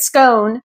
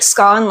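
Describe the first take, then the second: First: The vowel rhymes with 'stone'. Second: The vowel rhymes with 'lawn'. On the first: "you just write scone" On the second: "like S C A W N"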